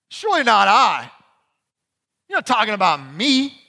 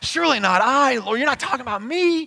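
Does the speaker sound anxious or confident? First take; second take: confident; anxious. First: It sounds confident and sure. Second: It sounds anxious and worried.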